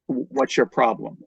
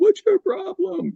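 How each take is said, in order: First: It is said loudly, confidently and sternly. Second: It is said timidly and quietly.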